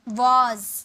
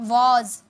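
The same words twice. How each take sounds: Both takes have the same delivery.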